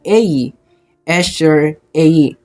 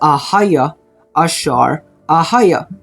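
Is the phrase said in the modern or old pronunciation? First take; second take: modern; old. First: The first word is said short, like ei. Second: The first word is said with two full vowels, ahaya. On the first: "Sa modern Hebrew po is, ang pagbigkas po nun is" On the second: "sa Old Phoenician Hebrew, ang pagbigkas po nito is ahaya"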